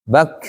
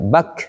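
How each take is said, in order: The two takes are said the same way.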